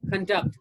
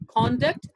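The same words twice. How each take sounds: First: The stress is on the second syllable. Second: The stress is on the first syllable. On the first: It is used as a verb. "as a verb" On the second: It is used as a noun. "as a noun"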